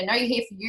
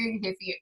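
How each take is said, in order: First: Said in the usual way. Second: Quiet self-talk. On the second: Retold or imitated. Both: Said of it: "I had to stop myself and to go".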